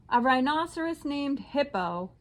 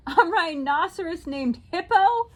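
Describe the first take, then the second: First: Said in the usual way. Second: Cried out. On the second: A narrator's reading. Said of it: "Fluffy cried".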